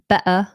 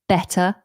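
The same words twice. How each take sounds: First: The middle T is a glottal stop. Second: The middle T is a clear T. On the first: "or like a glottal T" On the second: "you're more likely to hear the T"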